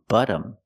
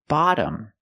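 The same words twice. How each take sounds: First: The first vowel is a short uh sound. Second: The first vowel is an open ah sound. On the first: The speaker calls it wrong. "I'm using the short uh sound like cup and up" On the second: The speaker calls it right. "It's pronounced bottom. We make a more open sound"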